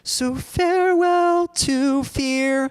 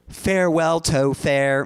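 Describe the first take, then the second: First: The last word has its usual 'fear' vowel. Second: The last word is opened to sound like 'fair'. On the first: "so farewell to fear. Like that's the main" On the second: "Like that sounds so weird when you say it"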